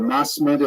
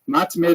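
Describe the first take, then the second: First: The middle consonant is an s sound. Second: The middle consonant is a t sound.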